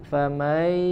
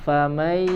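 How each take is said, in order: No difference in how they are said.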